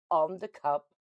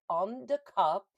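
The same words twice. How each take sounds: First: On the cup, with On said louder; stress on On. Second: Said in the usual way. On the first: Shown as a demonstration. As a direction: hit the word On when repeating. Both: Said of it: "Did you hear that?".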